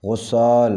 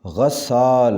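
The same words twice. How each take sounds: First: غسال with a rounded first vowel, "ghossaal"; mispronounced. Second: غسال with a short a first, "ghassaal"; correct pronunciation. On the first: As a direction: say غسال as ghos-SAAL. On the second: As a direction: say غسال as ghas-SAAL. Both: Shown as a demonstration. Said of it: "صحیح تلفظ ہے".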